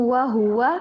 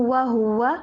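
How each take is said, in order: Both takes have the same delivery.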